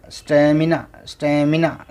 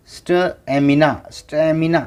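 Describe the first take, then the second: No difference in how they are said.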